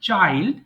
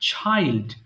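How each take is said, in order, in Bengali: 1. প্রথম ধ্বনিটি একটি সাধারণ, অল্পপ্রাণ ch। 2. প্রথম ধ্বনিটি একটি মহাপ্রাণ ch। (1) "নট চাইল্ড" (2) "বাট এখন থেকে ছ বলবেন"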